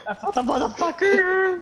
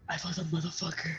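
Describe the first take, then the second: First: High, laughing Harley Quinn-like glee; manic laughing. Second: Very quiet, low, quick remark; hushed. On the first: Player gloating over finding an enemy, manic laughing. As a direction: cackle through the words, pitched way up. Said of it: "Harley Quinn". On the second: Player spotting an enemy in the game, hushed. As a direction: say it fast, under your breath. Same line repeated, first take hushed. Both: Real, not acted.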